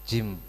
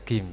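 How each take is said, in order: First: It begins with a soft j sound. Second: It begins with a hard g sound.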